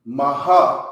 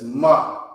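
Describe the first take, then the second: First: Maha sounded as two syllables, ma-ha; demonstrating the wrong two-syllable maha; wrong version. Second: Ma as one short syllable with a slight breath at the end; the right one-syllable ma; correct version. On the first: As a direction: say maha split in two, the mistake to avoid. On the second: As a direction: fold it into a single ma. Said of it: "It's just ma". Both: Shown as a demonstration.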